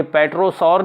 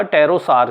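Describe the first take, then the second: First: पेट्रोसॉर starting on a sounded P; P pronounced in pterosaur. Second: टेरोसार starting straight on T; silent P in pterosaur. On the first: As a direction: say पेट्रोसॉर, voicing the P up front. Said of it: "ये पेट्रोसॉर नहीं हुआ". (पेट्रोसॉर, शुरू में प बोलकर) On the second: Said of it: "ये हुआ टेरोसार". (टेरोसार, बिना प के) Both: Shown as a demonstration.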